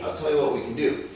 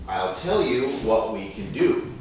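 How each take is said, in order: First: The sentence is spoken fast. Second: The sentence is spoken slowly. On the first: "Final version, fast again" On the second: "first, slowly"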